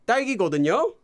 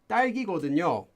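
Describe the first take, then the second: First: It is said with an impatient, obvious-sounding tone. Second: It is said calmly with a falling pitch. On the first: The answer should already be obvious to the listener. "hey, come on, you know" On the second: The speaker is simply sharing information. "So you're having a falling intonation"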